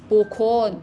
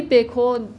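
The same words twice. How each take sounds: First: بکن said "bokon", first vowel o; zamme pronunciation. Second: بکن said "bekon", first vowel e; kasre pronunciation. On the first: Teacher comparing regional forms, بکن with o: "bokon". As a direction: begin بکن with "bo". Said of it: "بعضیا با ضمه". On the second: Teacher comparing regional forms, بکن with e: "bekon". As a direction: begin بکن with "be". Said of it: "بعضیا با کسره". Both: Shown as a demonstration.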